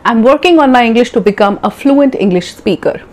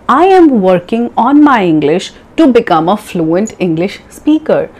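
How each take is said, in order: First: The sentence is spoken quickly. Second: The sentence is spoken slowly. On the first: The speaker has practised for some time. "Maybe after three months, you'll be able to say" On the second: The speaker is a beginner. "So a beginner would say it like that"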